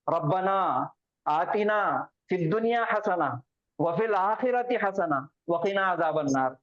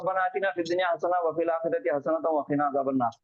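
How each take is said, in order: First: It is read with pauses between phrases. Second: It is read straight through in one breath.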